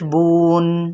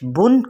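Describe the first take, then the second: First: The vowel is stretched into a long oo. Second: The vowel is short and not stretched.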